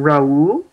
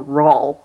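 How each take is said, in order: First: "Raul" said rah-OOL, in two syllables. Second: "Raul" said as one syllable, rawl; Raul rhyming with Paul. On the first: Co-host unsure of the hero's name, Raul as rah-OOL. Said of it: "if I should pronounce his name". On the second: Co-host offering another reading, Raul as one-syllable rawl. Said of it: "like Paul". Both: Shown as a demonstration.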